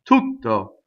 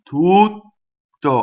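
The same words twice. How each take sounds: First: The vowel is cut short before the T. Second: The vowel is long before a held T. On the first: This is how it is spoken. "I don't cut the vowel short. You can do that when you speak" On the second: This is how it is sung. "I do the vowel long. I stop phonation. I go up to the T"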